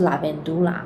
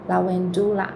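First: The v is pronounced like an English v. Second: The v is pronounced like a w. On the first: This is the English pronunciation. "那如果你用英文来发这个字的话" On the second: This is the Latin pronunciation. "因为拉丁文里面的V 它是发W 的音"

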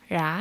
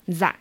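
First: It is said in a southern Vietnamese accent. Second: It is said in a northern Vietnamese accent.

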